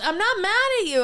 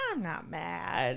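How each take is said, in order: First: High, loud mock protest; heated denial. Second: Slow, lower and softer reply; smiling denial. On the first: Customer to server over steak knife, heated denial. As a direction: imitate a touchy customer insisting he is calm. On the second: Retold or imitated. Customer answers server's challenge, calm smiling denial. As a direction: imitate someone calmly denying it with a slight smile. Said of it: "he ki-, kinda smiles".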